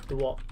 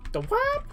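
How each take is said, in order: First: Said in the usual way. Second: Sudden very high, mock-baffled squeak; high-pitched squeak. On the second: Streamer joking on a meme phrase, squeaked high. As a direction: squeal it far above the normal voice.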